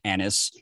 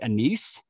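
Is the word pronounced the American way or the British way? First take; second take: American; British. First: The word is said with an American pronunciation. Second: The word is said with a British pronunciation. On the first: "in the States here, we call it anise" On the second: "I think the British say anise sometimes"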